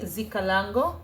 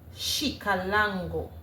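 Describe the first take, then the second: First: The word starts without a 'sh' sound. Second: The word starts with a 'sh' sound. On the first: The speaker calls it wrong. "Don't follow me, Zikalango. That's not how it is pronounced" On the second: The speaker calls it right. "The correct pronunciation with the S H sound is Shikalango"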